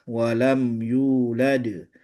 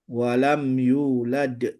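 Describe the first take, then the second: No difference in how they are said.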